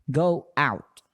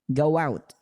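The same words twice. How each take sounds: First: The phrase is said at normal speed. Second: The phrase is said quickly and run together.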